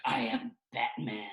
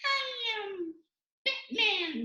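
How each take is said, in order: First: Slow, serious superhero growl; dead-serious masked hero introducing himself; Batman. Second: Very high, squeaky superhero; squeaky Batman. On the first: Showing why heroes sound serious, slow superhero voice. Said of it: "can you imagine Batman?". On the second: Showing a hero nobody takes seriously, squeaky voice. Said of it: "if he had a squeaky voice". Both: Shown as a demonstration.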